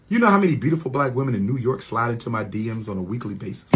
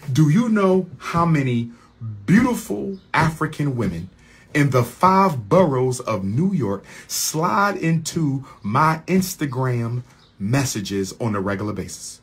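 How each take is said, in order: First: Fast, run-together question; quick boast. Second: Measured question broken by pauses; emphatic restatement. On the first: Man boasts about admirers in New York, rapid-fire. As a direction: rattle the whole question off quickly. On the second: Man restates boast about New York admirers, deliberate and emphatic. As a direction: spell it out phrase by phrase. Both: Real, not acted.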